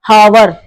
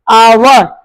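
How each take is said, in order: First: The word starts with an audible h sound. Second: The word starts with a vowel, no h sound. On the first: The speaker calls it wrong. "not hour" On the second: The speaker calls it right. "H is a silent here. This is our"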